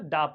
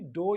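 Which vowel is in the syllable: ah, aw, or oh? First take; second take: ah; oh. First: The vowel is a short neutral 'ah' sound. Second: The vowel is a rounded 'oh' sound. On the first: The speaker calls it right. "डा पढ़ा जाएगा" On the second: The speaker calls it wrong. "ना कि डो या डॉ ऐसे नहीं पढ़ा जाएगा"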